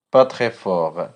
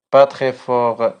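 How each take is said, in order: Both takes have the same delivery.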